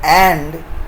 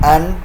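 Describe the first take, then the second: First: The word has a full, clear vowel. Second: The word has a weak, reduced vowel. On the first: The word is said on its own. "pronounced and in isolation" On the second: The word is said in connected speech. "in connected speech, it is reduced to an"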